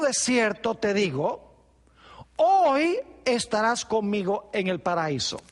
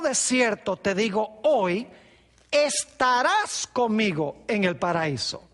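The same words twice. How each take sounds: First: There is a pause right after 'digo'. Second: There is a pause right after 'hoy'. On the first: The promise is to be in paradise that same day. "Jesús podría haberle dicho al ladrón" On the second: The promise is made today, for a later time. "Pero hay otra posibilidad"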